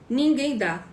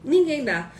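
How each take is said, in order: Both takes have the same delivery.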